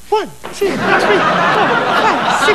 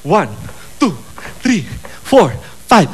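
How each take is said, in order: First: Put-on girly counting. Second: Said in the usual way. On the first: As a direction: count it up high and prissy like a giddy girl. Counting kicks when priests leave. (pabebe na bilang, mataas at mahina)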